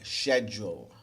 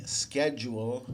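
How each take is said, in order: First: Schedule starting with sh, SHED-jool; British schedule. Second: Schedule starting with a hard sk, SKED-jool; American schedule. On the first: Teacher contrasting accents for students, schedule said SHED-jool. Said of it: "British people will say schedule". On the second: Teacher contrasting accents for students, schedule said SKED-jool. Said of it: "Americans will say schedule". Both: Shown as a demonstration.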